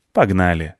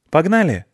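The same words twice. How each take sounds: First: Firm agreement. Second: Put-on high-pitched child's invitation; eager question. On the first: Acted. Other child accepts the invitation to race, firm and settled. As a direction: agree firmly with a falling tune. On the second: One child invites the other to race off, high and eager.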